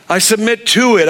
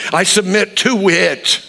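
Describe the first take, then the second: First: Higher, firmer "I submit to it"; decide to mean it; firm resolve. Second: Slow surrender. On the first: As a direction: repeat it with conviction. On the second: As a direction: say it slowly, giving in. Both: Shown as a demonstration. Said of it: "look in the mirror and say".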